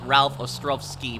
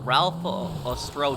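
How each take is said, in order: First: The w in Ostrowski sounds like v. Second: The w in Ostrowski sounds like w.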